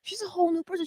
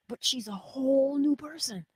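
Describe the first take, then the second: First: Much higher, stress on whole; high delighted repeat. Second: Unvoiced whisper, stress on new. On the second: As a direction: breathe it out in awe. Whispered marvel about friend. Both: Real, not acted.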